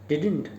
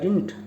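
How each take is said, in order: First: The second d sound is lightly kept. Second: The second d sound is dropped almost entirely.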